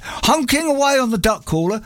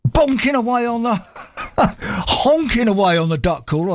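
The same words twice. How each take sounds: First: Said in the usual way. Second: Corpsing mid-word, higher; giggling through the punchline; laughing through a slip. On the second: Real, not acted. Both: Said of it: "I nearly ruined it".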